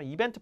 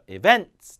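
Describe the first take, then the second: First: The stress is on the first syllable. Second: The stress is on the second syllable. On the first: The speaker calls it wrong. "절대 안 돼요" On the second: The speaker calls it right. "뒤에 강세"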